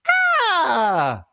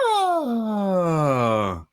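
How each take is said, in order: First: The sound resonates bright at the front of the mouth. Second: The sound is buried at the back of the mouth. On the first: The speaker calls it wrong. "really obvious" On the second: The speaker calls it right. "if you bury the sound ... right at the back"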